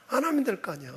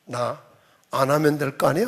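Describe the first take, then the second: First: Soft refusal, falling away at the end; resigned refusal. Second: Low grumbled refusal, rising at the end; grudging refusal. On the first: Church member choosing the easy way out, soft resigned refusal. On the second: Church member backing out when trouble comes, low grudging refusal. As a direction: throw it back low, tipping up on the last word. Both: Acted. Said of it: "뭐라고 그래요".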